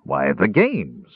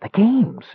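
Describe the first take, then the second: First: Slow, low exasperated dwarf; low, drawn-out exasperation. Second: Very high, thrilled kender; high-pitched dawning excitement; sudden excited realisation. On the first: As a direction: snap it wearily, drawing out GAMES. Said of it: "Arak snapped in exasperation". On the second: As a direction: catch on with a high gasp of delight. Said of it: "Suddenly he caught his breath". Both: A narrator's reading.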